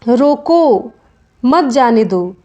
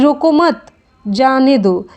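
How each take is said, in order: First: There is a pause right after रोको. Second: There is a pause right after मत.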